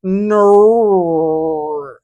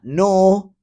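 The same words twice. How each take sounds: First: "no" in a loud, high, clumsy New Zealand vowel; attempted New Zealand "no", badly done. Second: "no" said as a plain American no; the American way of "no", the wrong one. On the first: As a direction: try the Kiwi "no", stretched. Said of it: "I, I can't do it". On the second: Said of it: "It's not no". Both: Shown as a demonstration.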